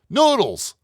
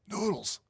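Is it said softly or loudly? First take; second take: loudly; softly. First: It is yelled loudly. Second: It is called out softly.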